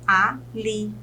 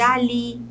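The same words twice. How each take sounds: First: "ali" split into a, li; syllable by syllable. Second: Said in the usual way. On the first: Shown as a demonstration. Teacher counts syllables for students, "ali" syllable by syllable. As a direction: say "ali" as two separate syllables. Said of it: "Se ela tem duas sílabas". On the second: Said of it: "se ela tem duas sílabas".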